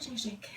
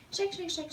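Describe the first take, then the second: First: Softer "shake, shake" fading away at normal pitch; trailing off. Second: High sing-song chant of shake shake shake; playful chant. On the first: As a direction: let "shake, shake" drop off quietly. Chant trailing off while shaking. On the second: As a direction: chant "shake, shake, shake" brightly on a higher pitch. Chanting while shaking out fabric. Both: Real, not acted.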